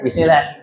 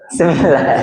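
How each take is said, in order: First: The word begins with a clear bis sound. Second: The word begins with a weak se sound. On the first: The speaker calls it right. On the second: The speaker calls it wrong.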